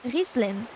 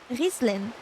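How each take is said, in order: First: The name is said with an Arabic pronunciation. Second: The name is said with an Arabic pronunciation.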